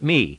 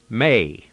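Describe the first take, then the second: First: The vowel sounds like 'ee'. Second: The vowel sounds like 'ay'. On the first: "in English, we'd pronounce it me" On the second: "in the Greek, it's pronounced may"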